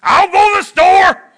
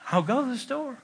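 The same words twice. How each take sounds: First: High, loud snap on go; angry shout. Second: Much softer, gentle offer; soft and willing. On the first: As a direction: spit it out in irritation. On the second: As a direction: say it quietly and kindly. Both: Shown as a demonstration. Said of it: "there's a difference between saying".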